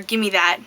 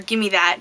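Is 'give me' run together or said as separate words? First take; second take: run together; run together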